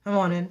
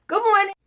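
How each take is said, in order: First: Low, grudging good morning; sour reply. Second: High, bright good morning; sunny greeting. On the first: The sour guard answering grudgingly, low and flat. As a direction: mumble it back as if it pains you. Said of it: "Sour, sour, sour". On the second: Greeting the sour guard brightly, high and cheerful. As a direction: chirp it out like sunshine. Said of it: "I'm gonna be that sunshine". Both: Retold or imitated.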